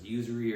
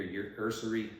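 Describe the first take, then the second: First: "usury" said YOO-zuh-ree, like "using". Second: "your usury" with the word said UR-suh-ree. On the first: Weighing up how to say it, "usury" as YOO-zuh-ree. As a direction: start "usury" with a clear YOO. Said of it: "I think it's probably usury". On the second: Unsure of the word, trying "usury" as UR-suh-ree. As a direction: open "usury" on an ER sound, not YOO. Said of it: "I'm not sure if it's". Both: Shown as a demonstration.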